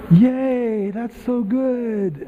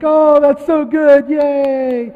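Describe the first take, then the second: First: Slow, high, forced mock cheer that fades; half-hearted praise. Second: High, loud, drawn-out mock cheer; gushing praise. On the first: Family praising an eight-year-old's bad singing, half-hearted. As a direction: praise dutifully with the enthusiasm draining away. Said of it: "when they were eight or nine". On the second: Family applauding a four-year-old's singing, gushing. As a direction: cheer as if for a cute little performer. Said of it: "everyone would be like".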